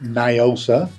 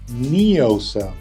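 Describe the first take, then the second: First: The first syllable sounds like 'nye'. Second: The first syllable sounds like 'nee'. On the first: The speaker calls it right. "some people pronounce it Niosa, like this guy" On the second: The speaker calls it wrong. "some people call it Neosa, crazy people"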